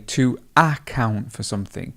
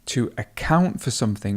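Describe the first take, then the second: First: The stress is on the first syllable. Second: The stress is on the second syllable. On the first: The speaker calls it wrong. "we wouldn't say" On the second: The speaker calls it right. "we still have the stress um, over the second syllable"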